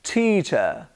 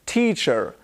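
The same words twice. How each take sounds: First: "teacher" ending in "uh", no r; non-rhotic British "teacher"; British schwa ending. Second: "teacher" with a sounded final r; imitated American "teacher", rhotic ending; American-style r ending. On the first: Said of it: "I say". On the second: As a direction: say "teacher" with a hard r at the end. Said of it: "I don't say". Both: Shown as a demonstration.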